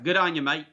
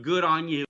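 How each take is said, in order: First: Broad "mate" in an Aussie accent; playful Australian send-off. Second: Said in the usual way. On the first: Shown as a demonstration. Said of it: "that's Australian, by the way".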